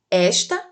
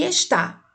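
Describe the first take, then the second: First: "esta" stressed on ES with open e; stress on first syllable. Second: "está" stressed on the final TÁ; stress on last syllable. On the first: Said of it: "leia os pares de palavras". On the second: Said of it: "é com acento". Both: Shown as a demonstration.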